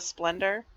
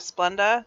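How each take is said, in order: First: The word ends with an added r sound. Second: The word ends in a plain vowel without r. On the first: "they go Splendor" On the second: "when people ask for Splenda"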